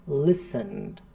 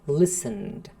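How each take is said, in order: Both takes have the same delivery.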